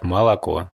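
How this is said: The unstressed vowels are said as a, Moscow-style.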